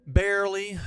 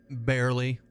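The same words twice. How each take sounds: First: BARELY pitched up and held high; playful exclamation. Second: Said in the usual way. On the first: Pretend. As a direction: repeat it higher, with playful emphasis. Repeats the word with playful emphasis.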